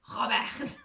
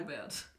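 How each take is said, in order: First: Robert loud with both R rolled, rising; Spanish rolled R. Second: Said in the usual way. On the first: Shown as a demonstration. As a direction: roll the R in Robert Spanish style. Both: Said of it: "gibt's irgendein spanisches Wort".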